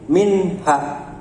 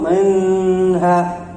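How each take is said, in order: First: The n is said clearly without a hum. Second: The n is drawn out with a nasal hum. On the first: The speaker calls it right. "tapi minha" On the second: The speaker calls it wrong. "tidak perlu minha, bukan"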